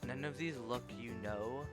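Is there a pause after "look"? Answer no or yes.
no. It runs on with no pause after look. The speaker calls it wrong. "they didn't hit the comma"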